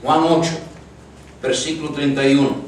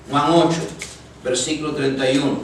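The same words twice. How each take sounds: The two takes are said the same way.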